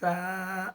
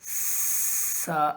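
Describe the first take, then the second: First: The consonant is soft without any whistle. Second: The consonant has a sharp whistling hiss. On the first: The speaker calls it right. "तो सा में एक तरह की नरमी पाई जाती है" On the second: The speaker calls it wrong. "ये गलत तरीका है"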